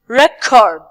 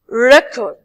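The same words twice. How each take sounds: First: The stress is on the second syllable. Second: The stress is on the first syllable. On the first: It is used as a verb. "so we are stressing the second part" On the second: It is used as a noun. "when we move to the nouns and adjective, we say"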